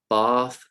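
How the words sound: It is said in a British RP accent. "I'm going to read uh, the words with my accents, which is R P"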